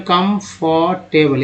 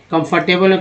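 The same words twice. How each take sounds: First: comfortable drawn out slowly, syllable by syllable; slow teaching demo of comfortable; slow spelled-out word. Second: Said in the usual way. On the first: Shown as a demonstration.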